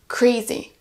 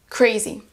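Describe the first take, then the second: The two takes are said the same way.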